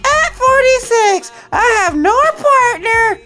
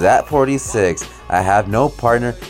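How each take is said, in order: First: It is read in a mocking put-on voice. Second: It is read in his normal voice.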